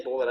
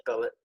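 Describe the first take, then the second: First: "bullet" with a rounded oo in the first syllable; the misheard word "bullet"; bullet, not billet. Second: "billet" with a short i in the first syllable; the corrected word "billet", first vowel as in "sit"; billet, not bullet. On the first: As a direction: say "bullet" with the vowel of "book". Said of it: "I said billet". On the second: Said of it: "I didn't say bullet". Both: Shown as a demonstration.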